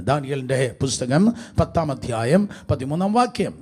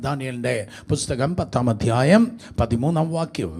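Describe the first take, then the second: No difference in how they are said.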